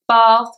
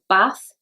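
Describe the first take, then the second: First: The vowel is long, like in car. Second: The vowel is short and flat.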